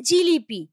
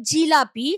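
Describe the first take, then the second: First: জিলিপি with i in the middle, not a; the casual জিলিপি form; everyday pronunciation. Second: Said in the usual way. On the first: Shown as a demonstration. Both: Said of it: "হয়ে যাচ্ছে জিলিপি".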